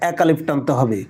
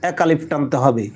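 No difference in how they are said.

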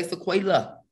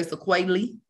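First: Sequela said "suh-KWAY-luh"; sequela with LUH ending. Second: Sequelae said "suh-KWAY-lee"; sequelae with LEE ending. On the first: Teacher showing students the other variant, sequela ending in "luh". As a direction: end sequela on an open "luh". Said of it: "Some people say sequela". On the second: Teacher showing students one variant, sequelae ending in "lee". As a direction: end sequelae on a clear "lee". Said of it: "Some people say sequelae". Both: Shown as a demonstration.

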